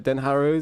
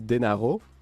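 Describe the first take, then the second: First: The name is pronounced the English way. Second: The name is pronounced the Italian way.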